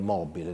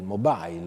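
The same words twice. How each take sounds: First: It is pronounced the Latin or Italian way. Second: It is pronounced with an English accent. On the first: The speaker calls it right. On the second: The speaker calls it wrong.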